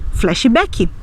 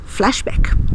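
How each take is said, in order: First: The word has a Brazilian Portuguese pronunciation. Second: The word has an English-style pronunciation. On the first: The speaker calls it right. "nós vamos dizer também flashback" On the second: The speaker calls it wrong. "em lugar de dizer flashback"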